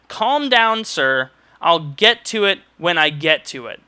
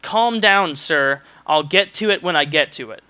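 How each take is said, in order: First: Mock her dismissive tone again, with more bite; imitating the curt clerk with emphasis; curt, repeated. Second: Imitating a clerk's dismissive snap, lightly; mild mock of a curt clerk. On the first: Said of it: "I wanna repeat that". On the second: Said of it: "in a really just kind of curt voice".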